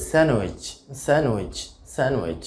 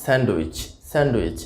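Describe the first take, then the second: First: স্যান্ডউইচ with silent d, "SAN-wich"; correct pronunciation. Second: স্যান্ডউইচ with the d sounded, "sand-wich"; common mispronunciation. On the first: Teacher models the word for learners, correctly pronounced. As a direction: slide from n to w in স্যান্ডউইচ. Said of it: "সঠিক উচ্চারণটা আসলে হবে". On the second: Teacher shows the usual mistake, mispronounced. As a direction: hit the d in স্যান্ডউইচ. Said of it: "ভুলভাবে উচ্চারণ করে থাকি". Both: Shown as a demonstration.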